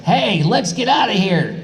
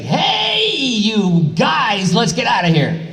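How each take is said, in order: First: A quick, high, clipped read of the line; short high rendition of the dub line; quick Goku line. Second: "Hey" cried out very high, then the rest pulled long; mock stretched dub read; stretched Goku line. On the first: Retold or imitated. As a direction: read "Hey, let's get outta here!" fast, to fit the short flap. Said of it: "And then it's like". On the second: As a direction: stretch the line out to fill the mouth flaps. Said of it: "you had to get creative".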